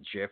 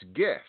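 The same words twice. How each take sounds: First: The word starts with a J sound. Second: The word starts with a hard G sound. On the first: The speaker calls it wrong. "You don't pronounce it GIF. It's not peanut butter" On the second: The speaker calls it right. "it's GIF"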